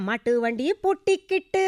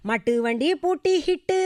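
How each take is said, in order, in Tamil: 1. கடைசி சொல் k ஒலியில் தொடங்குகிறது. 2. கடைசி சொல் h ஒலியில் தொடங்குகிறது. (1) "அந்த கா" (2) "இந்த ஹா சத்தம் வரும்"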